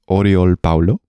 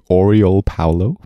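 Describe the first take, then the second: First: The name is said with a Spanish pronunciation. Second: The name is said with an English pronunciation. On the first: "am I gonna attempt a uh, Spanish pronunciation" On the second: "if I was to pronounce that in an English way"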